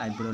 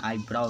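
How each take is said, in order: First: "आईब्रो" ending in a pure o; wrong pronunciation. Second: "आईब्राउ" ending in a gliding au; correct pronunciation. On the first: Teacher showing students the mistake, "आईब्रो" with a plain o. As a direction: say "आईब्रो" as eye-bro, no glide. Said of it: "आईब्रो नहीं पढ़ा जाता है". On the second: Teacher giving students the right eyebrow, "आईब्राउ" with au at the end. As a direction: say "आईब्राउ" as eye-brau. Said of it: "आईब्राउ उसको पढ़ा जाता है". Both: Shown as a demonstration.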